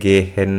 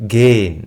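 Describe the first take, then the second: First: The h in the middle is clearly pronounced. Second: The h in the middle is silent. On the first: The speaker calls it wrong. "ഗേ ഹെൻ എന്നാ വായിക്കരുത് ഒരിക്കലും" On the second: The speaker calls it right. "എച്ച് silent ആയിരിക്കും"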